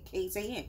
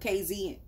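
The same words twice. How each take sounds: First: The letter Z is said as zed. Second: The letter Z is said as zee. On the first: It follows the local usage. "they say ze, ... so I just say K Z N" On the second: It follows the speaker's home usage. "instead of"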